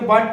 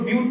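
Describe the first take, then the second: First: The vowel is a short 'uh' sound. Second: The vowel is a long 'yoo' sound. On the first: This is the everyday English word. "English में बट पढ़ते हैं" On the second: This is the chemistry prefix for four carbons. "लेकिन इसको ब्यूट पढ़ते हैं"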